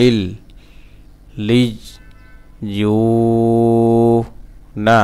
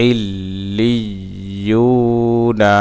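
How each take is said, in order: First: "ইল। লিইয়ুনা" in pieces with gaps, long held "you"; broken syllable-by-syllable. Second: "ইল্লিয়ুনা" in one slow flow, long u; joined reading pronunciation. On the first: Teacher showing the stretched vowel, syllable by syllable. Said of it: "এক আলিফ টান দিতে হবে". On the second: Teacher reading the word whole for learners, drawn out and joined. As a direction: connect "ইল্লিয়ুনা" and stretch the vowel. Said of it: "reading উচ্চারণ". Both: Shown as a demonstration.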